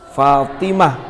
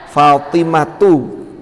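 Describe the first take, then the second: First: The word ends in an h sound. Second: The word ends in a t sound plus vowel. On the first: The word stands at a pause. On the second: The word is read continuously.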